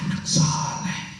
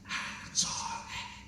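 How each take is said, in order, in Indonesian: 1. Diucapkan dengan volume normal, penuh. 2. Diucapkan dengan pelan, volume lembut.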